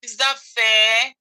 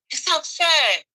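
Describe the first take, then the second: First: Said in the usual way. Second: Pitched up, pained and pleading; rising emotion, no longer calm; emotional higher plea. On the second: Real, not acted. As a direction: ask it again, higher and hurt. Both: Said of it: "I don't want to get emotional".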